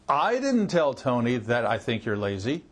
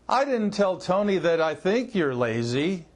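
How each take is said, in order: First: The stress falls on the first word, I. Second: The stress falls on the word think. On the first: Someone else told Tony. "That means somebody else told Tony that" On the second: It is known, not merely thought, that you're lazy. "That I think you're lazy means I know you're lazy"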